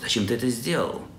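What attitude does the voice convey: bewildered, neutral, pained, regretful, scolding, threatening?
neutral. The question sounds plain and neutral. The speaker simply wants to know the reason. "Обычный вопрос"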